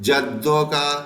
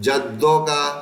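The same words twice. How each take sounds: Both takes have the same delivery.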